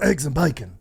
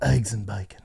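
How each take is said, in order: First: It is said in an agitated, worked-up way. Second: It is said calmly in a low voice.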